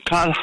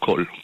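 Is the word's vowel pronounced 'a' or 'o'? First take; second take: a; o. First: The vowel is pronounced as 'a'. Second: The vowel is pronounced as 'o'. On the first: The speaker calls it right. "אומרים קל חמירה" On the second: The speaker calls it wrong. "לא קול"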